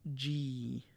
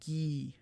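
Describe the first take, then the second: First: It starts with a J sound, like the letter G. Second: It starts with a hard G, as in get. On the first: The speaker calls it wrong. "not G" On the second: The speaker calls it right. "G I I is pronounced gee"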